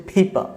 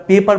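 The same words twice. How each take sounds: First: "ফেইপা" with a puff on p, no r; aspirated P, silent R. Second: "পেপার" with hard p and sounded r; wrong unaspirated P. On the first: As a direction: say "ফেইপা" British style, ending in a vowel. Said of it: "এটাকে বলবো হচ্ছে ফেইপা". ("ফেইপা" ফ দিয়ে, র ছাড়া) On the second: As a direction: say "পেপার" with no puff of air. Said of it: "আমরা পেপার বলবো না". ("পেপার" প আর র দিয়ে) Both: Shown as a demonstration.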